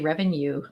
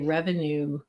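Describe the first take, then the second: First: It is said with a non-American pronunciation. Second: It is said with an American pronunciation. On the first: "we say revenue" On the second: "You Americans say revenue"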